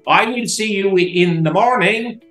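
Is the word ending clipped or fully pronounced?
fully pronounced. The final -ing of morning is fully pronounced.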